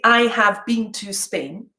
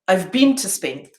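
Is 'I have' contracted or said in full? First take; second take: full; contracted. First: The words 'I have' are said in full. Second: The words 'I have' are contracted to 'I've'. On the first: The speaker calls it wrong. "I don't say" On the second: The speaker calls it right. "I say"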